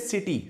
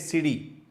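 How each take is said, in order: First: The middle consonant is a crisp, hard T. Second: The middle consonant is a soft, D-like flap. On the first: The speaker calls it wrong. "don't say city" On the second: The speaker calls it right. "say city"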